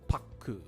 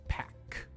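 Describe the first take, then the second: First: An extra vowel is added after the final consonant. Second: The word ends cleanly on the final consonant. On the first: The speaker calls it wrong. "not paku" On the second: The speaker calls it right. "And it's pack"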